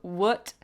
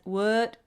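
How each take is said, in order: First: It is said with an American uh vowel. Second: The same.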